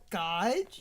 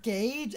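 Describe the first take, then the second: First: The vowel is pronounced as 'ah'. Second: The vowel is pronounced as 'ay'. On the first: "as gauge. You did that several years as a child" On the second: "used to say the word gauge"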